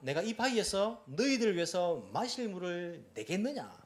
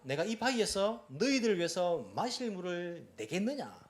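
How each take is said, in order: First: It is said in an angry, scolding tone. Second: It is said in an angry, scolding tone.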